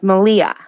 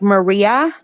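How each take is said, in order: First: The middle consonant is an L sound. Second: The middle consonant is an R sound.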